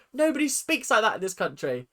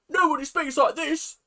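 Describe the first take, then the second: First: Said in the usual way. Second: Higher-pitched mock British accent; hammed-up British accent; exaggerated British accent. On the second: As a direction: put on a silly overdone British voice.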